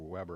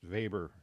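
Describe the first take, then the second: First: The name is pronounced another non-German way. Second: The name is pronounced the German way. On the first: The speaker calls it wrong. "or Weber or something like that" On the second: The speaker calls it right. "He's a German sociologist. That's why it's pronounced Weber"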